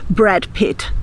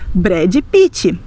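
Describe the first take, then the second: First: It is said with an English accent. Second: It is said with a Portuguese accent. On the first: The speaker may seem a bit snobbish. The speaker calls it wrong. "você não vai escutar os seus amigos brasileiros dizendo Brad Pitt" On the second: The speaker sounds normal to Brazilians. The speaker calls it right. "Eles vão dizer Brad Pitt"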